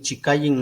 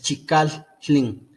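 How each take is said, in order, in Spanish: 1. La doble L es un solo sonido suave. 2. La doble L tiene una pausa en medio. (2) "Hay ahí como una separación"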